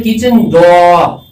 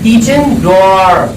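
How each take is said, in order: First: kitchen डोर with no r at the end, डोर as "daw"; British English, डोर ending on an open vowel without r; British pronunciation. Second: kitchen डोर with the r sounded at the end of डोर; American English, final r clearly pronounced in डोर; American pronunciation. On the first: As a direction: drop the final r of डोर, British style. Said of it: "जब Britain वाले पढ़ते हैं". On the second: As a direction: say डोर as "dor", rolling the final r. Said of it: "वो आर को last में pronounce करते हैं". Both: Shown as a demonstration.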